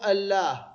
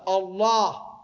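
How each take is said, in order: First: The l sound is light and thin. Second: The l sound is heavy and emphatic. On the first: The speaker calls it wrong. "مو" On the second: The speaker calls it right. "تفخم اللام مع لفظ الجلالة"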